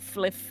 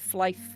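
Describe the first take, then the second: First: The vowel is a short 'i' sound. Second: The vowel sounds like the word 'fly'. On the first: It is how the group always said it. "we always called it Fliff" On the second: It follows the full name Fly for Fun. "because it was Fly for fun, so like Flife"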